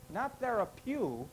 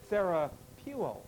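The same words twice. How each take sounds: First: Therapeu said slowly, cut off with no final o sound; therapeu, deliberately wrong, slow and clipped at the end; wrong pronunciation. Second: Therapeuo said slowly with the full ending, ther-a-pew-oh; therapeuo, the right way, every syllable sounded; correct pronunciation. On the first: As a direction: say therapeu as the mistaken short version, ending on "pew". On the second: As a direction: give therapeuo its final "oh", slowly and carefully. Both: Shown as a demonstration.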